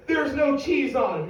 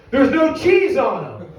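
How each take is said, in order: First: High pitch, no longer shouted; incredulous question. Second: High, loud, drawn-out outrage; customer's angry yell. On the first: Argument over remade burgers, high incredulous complaint. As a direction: let the outrage drop into high disbelief. Acted outraged question, easing off. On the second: Customer opens remade burgers and yells at manager, outraged. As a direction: shout it slowly in disbelief. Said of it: "is yelling at me". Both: Acted.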